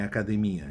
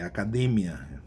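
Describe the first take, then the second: First: "academia" com tônica no I, a-ca-de-MI-a; tônica errada. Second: "academia" com tônica no DE, a-ca-DE-mia; tônica certa. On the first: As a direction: diga "academia" com hiato no MI. ("academia" à portuguesa, como erro) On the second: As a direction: diga "academia" forte no DE, com ditongo. ("academia" à espanhola, correto) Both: Shown as a demonstration. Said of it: "é uma palavra que tem diptongos e não hiatos".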